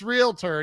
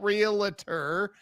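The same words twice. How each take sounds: First: No vowel is sounded between L and T. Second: An extra vowel is sounded between L and T. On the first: The speaker calls it right. "it's realtor, and you're saying it right" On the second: The speaker calls it wrong. "there's no vowel between the L and T. Why are you doing that? It's not realtor"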